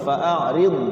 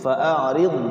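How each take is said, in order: No difference in how they are said.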